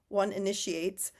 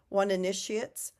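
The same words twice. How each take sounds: The two takes are said the same way.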